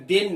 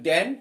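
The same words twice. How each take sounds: First: দেন said as "then", short e; then, not than. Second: দেন said as "than", open a; than, not then. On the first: Teacher showing students the word it is not, pronounced "then". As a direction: say দেন with the e of "den". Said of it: "এটা দেন নয়". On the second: Teacher correcting to the intended word, pronounced "than". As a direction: say দেন with the open vowel of "dan". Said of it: "এটা দেন নয়, কিন্তু দেন". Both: Shown as a demonstration.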